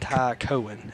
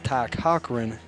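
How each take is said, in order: First: The surname has no hard k sound inside. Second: The surname has a hard k sound inside. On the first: The speaker calls it wrong. "I've been pronouncing it wrong all night" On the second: The speaker calls it right. "it is Ty Cochran and not Ty Cohen"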